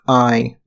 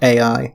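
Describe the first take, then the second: First: It is said as one sound, like eye. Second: It is said as two separate letter names. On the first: The speaker calls it right. "the title of the game is pronounced I" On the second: The speaker calls it wrong. "not A I"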